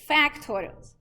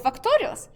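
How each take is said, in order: First: The first vowel is an 'a' sound. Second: The first vowel is not an 'a' sound. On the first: The speaker calls it right. "A, it's factorials" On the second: The speaker calls it wrong. "so I'm like, okay, so factorials"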